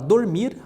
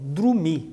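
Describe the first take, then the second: First: The first syllable is said as 'dor'. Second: The first syllable is said as 'dru'. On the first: "a palavra dormir é muito comum" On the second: "algumas pessoas trocam por"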